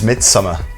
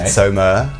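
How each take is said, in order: First: The title is pronounced the plain English way. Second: The title is pronounced the Swedish way.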